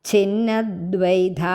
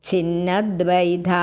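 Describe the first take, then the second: Both takes have the same delivery.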